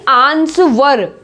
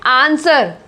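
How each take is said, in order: First: The word has a W sound inside. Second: The word has no W sound inside. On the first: The speaker calls it wrong. "आंसवर नहीं बोल रहे हैं" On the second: The speaker calls it right. "आंसर बोल रहे हैं यहां पे"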